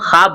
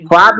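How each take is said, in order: First: The word begins with a throaty kh sound. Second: The word begins with a plain k sound. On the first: The speaker calls it right. "बोलना है" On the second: The speaker calls it wrong. "नहीं बोलना"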